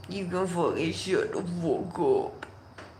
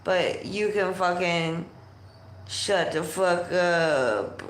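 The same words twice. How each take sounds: First: Softer, distorted goofy voice; mock echo in a muffled put-on voice. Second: Said in the usual way. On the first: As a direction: repeat it softly with warped, rounded vowels. Repeats the line in odd voice.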